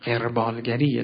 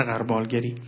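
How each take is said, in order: First: «قربالگریه» with a short e after the ق; correct pronunciation. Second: «قربالگری» with a short a after the ق; wrong pronunciation. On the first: Teacher correcting media usage, «قربالگریه» pronounced with kasre, qer-. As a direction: say «قربالگریه» as qerbâl-gari-ye. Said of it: "کلمه با کسره". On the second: Teacher showing the media's mistake, «قربالگری» pronounced qar-. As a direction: say «قربالگری» as qarbâl-gari. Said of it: "قربال غلط است". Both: Shown as a demonstration.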